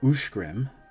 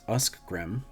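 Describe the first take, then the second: First: The cluster after the first vowel sounds like sh. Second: The cluster after the first vowel sounds like sk. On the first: The speaker calls it right. "is ushgrim" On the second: The speaker calls it wrong. "and not uskgrim"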